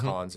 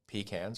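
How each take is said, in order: First: Pecans is said the way Texans say it. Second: Pecans is said in a non-Texan way.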